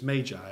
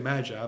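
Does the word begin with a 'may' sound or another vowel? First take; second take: may; another vowel. First: The first syllable sounds like 'may'. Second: The first syllable does not sound like 'may'. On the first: The speaker calls it right. "it's my understanding it's magi, as in M-A-Y-J-I" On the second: The speaker calls it wrong. "We always say magi"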